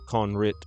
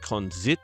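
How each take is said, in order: First: The middle consonant is an r sound. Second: The middle consonant is a z sound. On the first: The speaker calls it wrong. "I was going to say it Conrit" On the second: The speaker calls it right. "I think it's actually Konzit"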